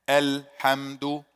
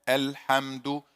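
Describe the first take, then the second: No difference in how they are said.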